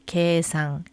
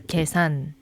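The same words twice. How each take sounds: First: The first vowel is drawn out long. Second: The first vowel is said short.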